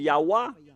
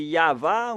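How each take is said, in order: First: The middle consonant is a W sound. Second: The middle consonant is a V sound. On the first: The speaker calls it wrong. "on a précisé le W" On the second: The speaker calls it right. "la bonne prononciation de la lettre Vav, V"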